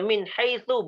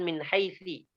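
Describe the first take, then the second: First: The last word ends with a u vowel. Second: The last word ends with an i vowel. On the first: The speaker calls it right. "kita membaca min haitsu" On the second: The speaker calls it wrong. "bukan min haitsi"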